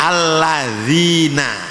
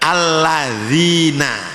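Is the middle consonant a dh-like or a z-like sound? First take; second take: dh-like; dh-like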